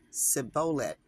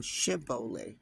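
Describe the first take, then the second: First: "Sibboleth" with a plain s at the start, no sh; Ephraimite pronunciation. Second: "Shibboleth" starting with a clear sh sound; sh pronunciation. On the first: Showing viewers the Ephraimite way, "Sibboleth" with s. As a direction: say "Sibboleth" starting with a hissed s sound. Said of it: "like an Ephraimite". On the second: Showing viewers the Gileadite way, "Shibboleth" with sh. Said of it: "rather than Shibboleth". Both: Shown as a demonstration.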